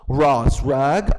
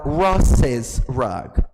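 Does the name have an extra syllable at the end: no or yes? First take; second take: no; yes. First: The name has no added syllable at the end. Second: The name has an added syllable at the end.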